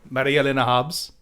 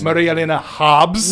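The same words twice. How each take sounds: First: No heavy stress falls on Hobbs. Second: The stress falls heavily on Hobbs.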